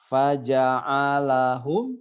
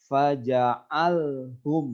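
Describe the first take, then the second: First: A vowel is heard between the l and h. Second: No vowel is heard between the l and h. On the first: The speaker calls it right. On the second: The speaker calls it wrong.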